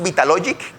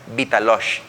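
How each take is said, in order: First: The name ends with a hard 'g' sound. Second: The name ends with an 'sh' sound. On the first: This is how most people say the name. "Mientras todos decimos Vitalogic" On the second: This is how an insider who knew the company says it. "él siempre decía Vitalosh"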